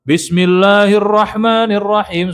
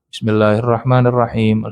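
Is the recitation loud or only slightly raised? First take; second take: loud; slightly raised. First: The voice is loud and projected strongly. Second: The voice is raised only slightly above normal. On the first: It is recited as loudly as a prayer leader would. The speaker calls it wrong. "Bukan keras, bukan begitu" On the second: It fulfils the practice of reciting aloud without being loud. The speaker calls it right. "Segitu, segitu saja. Dinaikkan dengan niat menjaharkan"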